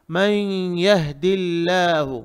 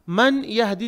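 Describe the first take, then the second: First: मन यहदिल्लाहु slow, n melted into a held nasal y; silent noon. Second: मन यहदी with a sounded n, two separate words; wrong clear noon. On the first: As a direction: say मन यहदिल्लाहु as may-yahdillahu. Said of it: "यहाँ नून silent रहता". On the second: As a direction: say मन यहदी quickly, n fully pronounced. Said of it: "नहीं पढ़ेंगे". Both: Shown as a demonstration.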